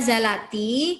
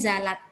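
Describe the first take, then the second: First: The word ends with an added i vowel. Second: The word ends on a bare t consonant. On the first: It links straight into the following word. "kita baca zalati karena kita baca langsung" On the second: The word is read on its own. "Kalau kita baca satu persatu, bacanya zalat"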